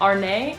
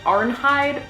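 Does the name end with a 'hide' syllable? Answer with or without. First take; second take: without; with. First: The name ends without any 'hide' syllable. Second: The name ends with a clear 'hide' syllable. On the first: This is how it is said in the original show. The speaker calls it right. "It's more of Arne" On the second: This is how the spelling looks to an American reader. The speaker calls it wrong. "Americanized, it looks like Arnhide"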